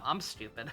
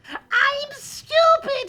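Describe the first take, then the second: First: It is said at a normal, quiet volume. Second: It is said loudly, almost shouted.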